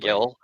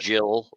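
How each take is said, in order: First: It begins with a hard G sound. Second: It begins with a soft J sound. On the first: The speaker calls it wrong. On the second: The speaker calls it right. "Jill, like J I L L"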